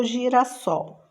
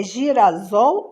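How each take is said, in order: First: Said in the usual way. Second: "girasol" with a buzzing Z in place of S; Z sound. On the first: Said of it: "dois S's". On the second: Shown as a demonstration. Teacher testing the spelling rule, "girasol" mispronounced with Z. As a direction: say "girasol" as gira-ZOL. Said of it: "Se tá no meio entre vogal".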